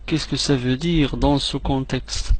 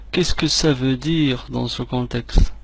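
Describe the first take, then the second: No difference in how they are said.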